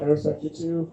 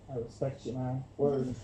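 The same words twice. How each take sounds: First: Said in the usual way. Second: Low, hushed cool-guy voice, much softer; a light Fallon impression, low and quiet; imitating Jimmy Fallon. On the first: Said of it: "He'd be like". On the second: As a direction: murmur it low like a laid-back talk show host. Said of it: "And Jimmy Fallon would be like".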